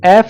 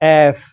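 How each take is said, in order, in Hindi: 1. अंतिम ध्वनि एक हल्की साँस वाली p जैसी है। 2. अंतिम ध्वनि में ऊपरी दाँत निचले होंठ पर होते हैं। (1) "एफ नहीं है ये" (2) "जो आपके अपर टीथ हैं वो आपके लोअर लिप को"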